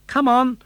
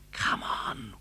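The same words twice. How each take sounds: First: Loud raised puppet voice; high urgent puppet call. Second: Hushed whisper. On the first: Pinocchio urging his father, loud and high. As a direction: call out eagerly. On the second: Pinocchio whispering to Geppetto inside the whale. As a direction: breathe it out without voice. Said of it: "whispered Pinocchio". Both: Acted.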